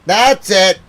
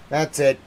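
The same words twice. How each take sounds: First: Loud, high fed-up yell; angry shout. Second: Said in the usual way. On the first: Real, not acted. Fed up with the BBC, shouting. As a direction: explode on the words.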